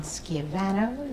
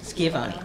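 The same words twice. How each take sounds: First: Schiavano with "-vano" at the end; mispronounced surname. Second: Schiavone with "-vone" at the end; corrected surname. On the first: Moderator guessing at a candidate's name, mispronounced Schiavano ending in "-vano". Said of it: "forgive me if I mispronounce the names". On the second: Moderator repeating a candidate's correction, Schiavone ending in "-vone". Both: Real, not acted.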